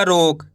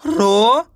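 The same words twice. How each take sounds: First: Said in the usual way. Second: रोक split as रो, pause, क; long rising रो, then क by itself; रोक sounded out in separate parts; syllable by syllable. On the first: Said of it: "मिलके बन जाएगा". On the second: Shown as a demonstration. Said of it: "एक अक्षर का उच्चारण करके".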